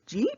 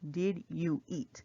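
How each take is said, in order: First: The words are run together into one syllable. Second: Each of the three words is said fully.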